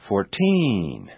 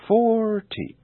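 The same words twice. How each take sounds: First: "fourteen" with a long drawn-out TEEEN; exaggerated final stress. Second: "forty" with a long, high FOOOR and short ending; exaggerated first-syllable stress. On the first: Teacher exaggerating so it's easier to notice, "fourteen" with lengthened TEEN. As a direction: stretch the last vowel of "fourteen". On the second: Teacher exaggerating so it's easier to notice, "forty" with lengthened FOR. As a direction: stretch the first vowel of "forty". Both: Shown as a demonstration. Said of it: "I will exaggerate them first".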